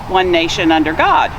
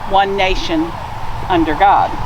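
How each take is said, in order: First: The phrase flows with no pause after 'nation'. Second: There is a pause after 'nation' before 'under'. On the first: The speaker calls it right. "the correct way to say the pledge is with no pause between one nation and under God" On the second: The speaker calls it wrong.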